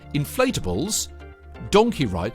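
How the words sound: There is a pause after the first word. Inflatables and donkey rides are separate attractions. The speaker calls it right. "not inflatable donkeys"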